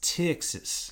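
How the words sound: It is said in a Texan accent. The speaker calls it right. "if you want to do a Texas accent"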